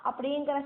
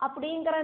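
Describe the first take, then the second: No difference in how they are said.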